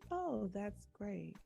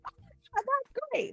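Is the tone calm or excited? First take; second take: calm; excited. First: It is said in a calm, subdued tone. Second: It is said in an excited, expressive tone.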